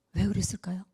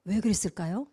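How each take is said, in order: First: Softer echo. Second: Said in the usual way. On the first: Real, not acted.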